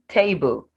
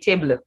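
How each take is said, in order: First: A schwa is heard between b and l. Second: No schwa is heard between b and l. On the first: The speaker calls it right. "So between b and l, the schwa sound is there" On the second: The speaker calls it wrong. "I didn't say table"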